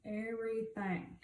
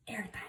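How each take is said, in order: First: Said in the usual way. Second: Soft unvoiced whisper on "everything.". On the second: Real, not acted. Telling her viewers the foundation covers it all, whispered. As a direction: breathe out "everything." as a secret.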